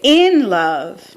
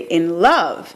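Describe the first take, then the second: First: The word love is weak and barely heard. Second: The word love is stressed and clearly heard.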